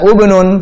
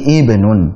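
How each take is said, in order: First: The word begins with a 'u' vowel. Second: The word begins with an 'i' vowel. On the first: The speaker calls it wrong. "bukan ubnun" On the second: The speaker calls it right. "tapi ibnun"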